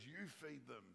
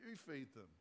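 First: A hint of sass, soft and pointed; sassy Jesus. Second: Lightly cheeky retort; sassy Jesus. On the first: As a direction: toss it back at them, mildly cheeky. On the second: Acted. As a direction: hand the problem back with mild sass. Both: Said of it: "I love it when Jesus gets sassy".

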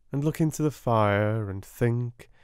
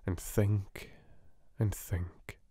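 First: Said in the usual way. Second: Fading whisper. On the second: A narrator's reading. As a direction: trail off into thought. Narration fading out.

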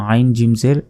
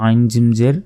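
Both takes have the same delivery.

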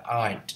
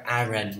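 First: "aren't" as one syllable, "arnt"; "aren't" without any "ren" syllable; corrected pronunciation. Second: "aren't" in two syllables, like "A-ren"; "aren't" misread with a full "ren" ending; mistaken pronunciation. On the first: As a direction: say "aren't" in a single beat ending in t. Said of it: "sửa lại cách đọc là aren't". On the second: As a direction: split "aren't" into "ah-REN", final t dropped. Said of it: "đừng có đọc aren't nha". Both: Shown as a demonstration.

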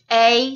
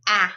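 First: A as long "ay", as in pain. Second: A as short "aa", as in pan. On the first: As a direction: say a as a full "ay" vowel. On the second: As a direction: say a as the open "aa" vowel. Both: Shown as a demonstration. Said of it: "a long sound to a short sound".

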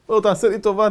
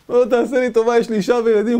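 First: Slightly raised begging; mild plea. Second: Louder, higher frantic begging; desperate pleading. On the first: Captive first asking the chief for mercy, mild. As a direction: ask for mercy. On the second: Captive begging the cannibal chief, frantic and loud. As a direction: plead for your life. Captive begs for his life. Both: Retold or imitated.

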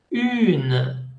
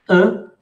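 First: "une" with rounded u and sounded n; pure vowel in "une", then a clear n; nasalization gone. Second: "un" as a short nasal vowel. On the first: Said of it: "La nasalización disparaît". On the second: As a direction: say "un" through the nose, no n. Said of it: "nasalización". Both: Shown as a demonstration.

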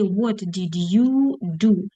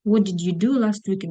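First: Slow question with YOU stretched; measured teacher modelling; drawn-out prompt. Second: Said in the usual way. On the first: Shown as a demonstration. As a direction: linger on "you" before "do". Prompt before the full question.

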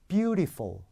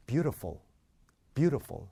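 First: Beautiful higher, with clear "ee": "byu-ree-fol"; mistaken pronunciation. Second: Beautiful as "BYU-ruh-fol"; native-like reduction. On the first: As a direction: make the middle of beautiful too distinct. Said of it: "틀린 거부터 해볼까요?". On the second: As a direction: blur the middle vowel of beautiful. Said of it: "맞는 거". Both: Shown as a demonstration.

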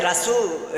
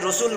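First: রাসূল with open a, "Ra-sul"; Bengali variant. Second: রসুল with rounded o, "Ro-sul"; corrected pronunciation. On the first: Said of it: "রসুলকে বাংলায় রাসূল". (আ-কার দিয়ে "রাসূল") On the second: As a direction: round the first vowel of রসুল to o. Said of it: "বাংলায় রসুল বলেছি". (গোল অ দিয়ে "রোসুল") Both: Shown as a demonstration.

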